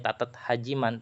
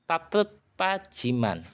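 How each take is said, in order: First: The second word begins with an H sound. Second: The second word begins with a T sound. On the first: The speaker calls it wrong. "kita nggak usah pakai tatat Hajiman" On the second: The speaker calls it right. "Nanti dibacanya kayak gini"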